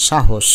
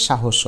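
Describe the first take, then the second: First: সাহস ending on a bare sh, "shahosh"; no vowel after the last sh of সাহস; two syllables in সাহস, sha-hosh; with hasanta. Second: সাহস with a final vowel, "shahosho"; three syllables in সাহস, sha-ho-sho; without hasanta. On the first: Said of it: "স এর মতো". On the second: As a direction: add an o after the last sh of সাহস. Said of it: "তা না হলে উচ্চারণ হয়ে যাবে". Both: Shown as a demonstration.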